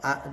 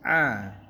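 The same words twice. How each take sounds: First: It is a plain, ordinary a vowel. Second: The vowel is squeezed from the throat. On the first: The speaker calls it wrong. "Kalau a itu biasa" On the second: The speaker calls it right. "ini a gitu ya"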